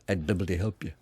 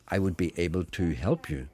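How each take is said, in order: First: The words are squeezed and run together. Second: Each word is said separately and fully.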